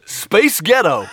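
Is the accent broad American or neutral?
American. It is said in a broad American accent.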